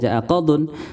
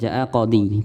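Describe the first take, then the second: First: The second word ends in an un sound. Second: The second word ends in a plain i sound. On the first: "bukan jaa qadun" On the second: "bukan jaa qadhi"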